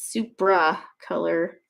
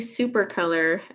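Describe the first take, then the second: First: The first word is said as supra. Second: The first word is said as super. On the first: The speaker calls it right. "and it's supra color" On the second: The speaker calls it wrong. "I always want to say super color"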